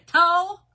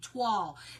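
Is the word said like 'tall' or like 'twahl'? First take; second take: tall; twahl. First: It is said like 'tall', without a w-sound. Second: It is said like 'twahl', with a w-sound. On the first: The speaker calls it wrong. "I always mess it up with my southern accent" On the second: The speaker calls it right. "That's it"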